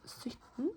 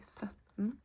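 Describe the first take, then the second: First: Sytten with a rounded "y" vowel as written; spelled way. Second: Sytten said as "søtten", with an Ø vowel; Ø sound. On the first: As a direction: say sytten the correct written way, a clear y. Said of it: "few people say that". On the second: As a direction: say sytten with an open, rounded Ø. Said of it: "with an Ø sound". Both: Shown as a demonstration.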